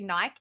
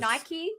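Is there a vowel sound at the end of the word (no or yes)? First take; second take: no; yes. First: It ends without a final vowel sound. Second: It ends with a pronounced final vowel.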